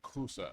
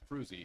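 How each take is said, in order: First: The surname ends in an 'uh' vowel. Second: The surname ends in an 'ee' vowel. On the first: This is how it is said in the original language. "It's Dutch, so it's it's like Cruza or something like that" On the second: This is how the speaker says it in American English. "but it's Cruzy in, in American, American English"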